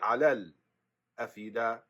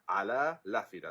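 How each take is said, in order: First: A short stop comes before the glottal stop. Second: The glottal stop is dropped and sounds merge. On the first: "Just a short pause" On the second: "They delete the hamza and it goes to the lam"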